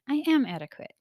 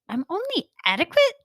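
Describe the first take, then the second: First: The speaker sounds content and accepting. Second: The speaker sounds offended and indignant.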